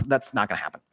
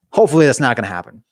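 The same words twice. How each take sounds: First: Hushed, near-whispered aside; under the breath. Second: Said in the usual way. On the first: Real, not acted. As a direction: drop to a soft, whispery murmur. Joking denial muttered under breath.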